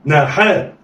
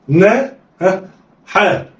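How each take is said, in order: First: "ناحاء" joined in one quick go; snatch "ناحاء" with no pause; snatched together. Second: "نا" alone, a prompting "ها", then "حاء"; letters sounded apart. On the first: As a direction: blend "ناحاء" like one word. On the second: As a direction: pause after "نا" before giving "حاء". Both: Shown as a demonstration. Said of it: "يلا، اخطف".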